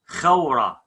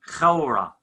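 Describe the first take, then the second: No difference in how they are said.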